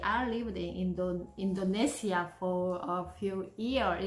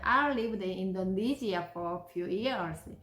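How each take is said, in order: First: The words are choppy and not linked together. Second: The words flow smoothly and are linked together. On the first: The speaker calls it wrong. "이렇게 돼 있는데" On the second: The speaker calls it right. "브락 오바마는 어떻게 읽었냐면"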